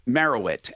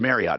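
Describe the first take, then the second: First: The word is said carefully, each syllable clear. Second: The word is said quickly, syllables run together. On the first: The speaker calls it right. "I have to say this right" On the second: The speaker calls it wrong. "I say it quickly"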